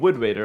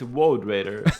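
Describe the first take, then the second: First: The first word rhymes with good. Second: The first word rhymes with road. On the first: The speaker calls it wrong. "Because you're saying Wood Raider, of course they're laughing" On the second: The speaker calls it right. "It's Woad Raider"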